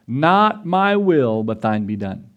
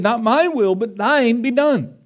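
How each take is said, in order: First: Solemn surrender. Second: Higher, slower, pleading cry of surrender; Jesus pleading in the garden, higher and anguished. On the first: Jesus's prayer quoted slowly. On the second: Jesus's prayer repeated, raised. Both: Retold or imitated.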